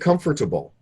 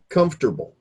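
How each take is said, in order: First: Every syllable is pronounced, as spelled. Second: A middle syllable is cut out. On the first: The speaker calls it wrong. "if these were spoken like they are spelled, then it's far too formal" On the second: The speaker calls it right. "we say comfortable"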